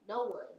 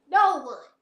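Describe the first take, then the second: First: Said in the usual way. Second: "No one." louder and higher; emphatic repeat. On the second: Real, not acted. Answering her own question, louder emphatic "No one.". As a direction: punch "No one." hard the second time.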